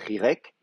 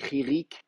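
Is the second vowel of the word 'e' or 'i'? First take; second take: e; i. First: The second vowel is the sound 'e'. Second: Both vowels are the sound 'i'. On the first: This is the traditional form. "au lieu de rirek" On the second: This is the modern Hebrew form. "en hébreu moderne ... on dit ririk"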